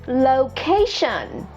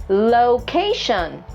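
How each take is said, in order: The two takes are said the same way.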